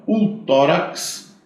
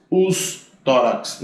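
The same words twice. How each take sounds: First: "O" stressed, "tórax" drawn out, rising; slow "O tórax" with the weight on "O"; article stressed, slow. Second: "os" stressed, "tórax" drawn out, falling; slow "os tórax" with the weight on "os"; article stressed, slow. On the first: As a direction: hit the singular article "O" slowly. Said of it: "tá bom". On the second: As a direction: hit the plural article "os" slowly. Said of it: "Não vai variar". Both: Shown as a demonstration.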